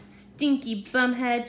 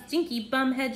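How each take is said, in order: First: Loud, playful name-calling; shouted insult. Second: Mild raised-voice echo, pitched up; shouted copycat insult. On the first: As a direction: call out the insult, half-shouted. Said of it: "shouted Barbara". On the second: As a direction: parrot the insult back, higher. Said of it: "shouted the wobbler". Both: A narrator's reading.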